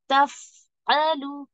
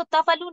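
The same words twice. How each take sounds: First: तफअलु very slow, the voice carried on; correct drawn-out reading. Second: तफअलु said quick, with no drawn sound; wrong clipped reading. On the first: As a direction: glide slowly through तफअलु. (तफअलु को खींचकर, आवाज़ चलाते हुए) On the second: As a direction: clip तफअलु short. (तफअलु को जल्दी और कटा हुआ) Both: Shown as a demonstration. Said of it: "आप इसको तफअलु नहीं बोल सकते".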